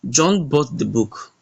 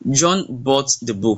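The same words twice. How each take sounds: First: The word book carries the main stress. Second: The word bought carries the main stress. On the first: It was the book he bought, not something else. "So the book here is stress" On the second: He bought it rather than borrowing or stealing it. "so we are stressing the bought"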